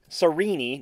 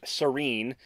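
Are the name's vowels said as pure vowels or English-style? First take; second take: pure vowels; English-style. First: Each vowel is said as a pure vowel. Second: The vowels are said in an English way. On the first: The speaker calls it right. "which use pure vowel tones in pronunciation" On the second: The speaker calls it wrong. "not Serene"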